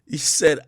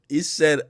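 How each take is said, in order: Both takes have the same delivery.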